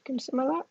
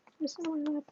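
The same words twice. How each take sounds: First: Softly coaxing the dog up; pet talk. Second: High pet talk. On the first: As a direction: gently coax the pup into your lap. Asking the dog onto her lap. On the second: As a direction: squeak the question up high to the dog. Asking the dog again. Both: Real, not acted.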